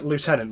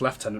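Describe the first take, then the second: First: The word begins with a 'loo' sound. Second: The word begins with a 'lef' sound. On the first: The speaker calls it wrong. "so I even said it wrong" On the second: The speaker calls it right. "it's Lieutenant, mate"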